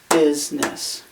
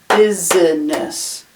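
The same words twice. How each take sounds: First: The middle vowel is dropped, giving two syllables. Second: The middle vowel is pronounced, giving three syllables. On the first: "that middle vowel there gets dropped out" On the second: "It looks like it should be pronounced business"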